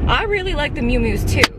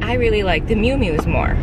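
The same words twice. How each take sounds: First: "really" lifted high and stressed; emphatic agreement. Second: Said in the usual way. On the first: Real, not acted. Telling viewers she agrees, stressing really. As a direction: lean into "really", bright and emphatic. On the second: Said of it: "a lot of you guys were like".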